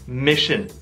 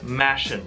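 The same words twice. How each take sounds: First: The first vowel is a short i. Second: The first vowel is not a short i. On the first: The speaker calls it right. "但是是 mission" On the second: The speaker calls it wrong. "他说的是 mission"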